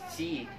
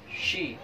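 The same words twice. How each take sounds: First: "si" with a plain s, no sh; plain s sound. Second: "shi" with a hushing sh; sh sound. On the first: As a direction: say "si" with a clean hissed s. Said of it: "kalau tidak ada titiknya". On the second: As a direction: say "shi" with sh in place of plain s. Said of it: "Kalau ada titiknya". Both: Shown as a demonstration.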